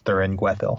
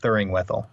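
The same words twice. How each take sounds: First: The g sound opens the second part, gwethil. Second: The g sound closes the first part, Thuring. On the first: The speaker calls it right. "I realized it's Thuringwethil" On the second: The speaker calls it wrong. "I think I have always said Thuringwethil"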